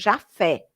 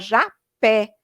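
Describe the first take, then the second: First: The middle consonant is an F sound. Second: The middle consonant is a P sound. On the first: The speaker calls it wrong. "o P H, com um som de F" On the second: The speaker calls it right. "era Japé, com P H"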